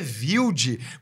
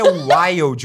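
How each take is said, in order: First: Wild is said with a German pronunciation. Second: Wild is said with a non-German pronunciation. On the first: This follows the surname's German origin. "O certo é Wild, porque é alemão o seu sobrenome" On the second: This is how the speaker says her stage name. "quem falou pra você que é Wild?"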